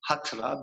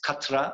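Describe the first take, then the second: First: It begins with a breathy h sound. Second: It begins with a plain k sound. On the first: This follows Turkish sound rules. "In Turkish phonetics, we prefer pronouncing it Hatra" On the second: Some European speakers say it this way. "They pronounce it Katra or something like that"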